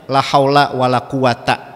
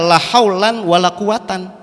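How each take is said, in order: First: Both nouns end in a short a sound. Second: Both nouns end in an -an sound. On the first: "Maksudnya la haula pakai fathah" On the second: "Tapi padahal boleh dibaca la haulan wala quwatan"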